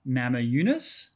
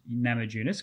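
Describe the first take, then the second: First: The surname begins with a Y sound. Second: The surname begins with a J sound. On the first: The speaker calls it right. "the pronunciation is Nama Yunus" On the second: The speaker calls it wrong. "I was saying Rose Nama Yunus because I just read the words phonetically"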